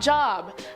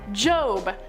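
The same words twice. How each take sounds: First: The word rhymes with 'rob', with a short vowel. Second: The word rhymes with 'robe', with a long vowel. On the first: The speaker calls it wrong. "not Job. ... pronounced it wrong" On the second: The speaker calls it right. "The references to the behemoth come from the book of Job"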